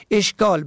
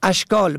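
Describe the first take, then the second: First: اشکال as "eshkāl"; short "e" opening اشکال; first vowel "e". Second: اشکال as "ashkāl"; fatha on first letter. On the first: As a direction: say اشکال as esh-kāl. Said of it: "به فتح اول مشکلات". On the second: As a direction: open "a" opening اشکال. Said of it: "به فتح اول". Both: Shown as a demonstration.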